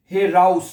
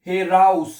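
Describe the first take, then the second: No difference in how they are said.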